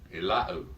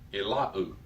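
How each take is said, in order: First: The word ends in a u vowel. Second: The same.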